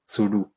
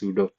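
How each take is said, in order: First: The word ends with a 'doo' sound. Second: The word ends with a different vowel sound. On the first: The speaker calls it wrong. "Some people are pedantic and pronounce sudo as sudo. Oh, sudo because it is a super user do" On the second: The speaker calls it right. "Others are correct and pronounce it as sudo"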